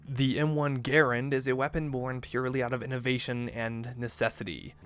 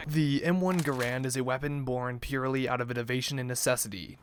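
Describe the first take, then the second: First: Garand stressed on the first syllable, GAIR-und; corrected Garand pronunciation. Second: Garand stressed on the second syllable, guh-RAND; mispronounced Garand. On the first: Narrator restarting the intro, Garand now said correctly as GAIR-und. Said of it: "is pronounced Garand, like errand". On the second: Narrator opening his gun guide, saying Garand wrongly as guh-RAND. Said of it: "I've been saying it wrong". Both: Real, not acted.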